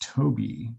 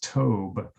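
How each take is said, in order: First: The name has two syllables, ending in ee. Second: The name has one syllable, rhyming with robe. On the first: The speaker calls it right. "That's pronounced Toby" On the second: The speaker calls it wrong. "not Tobe"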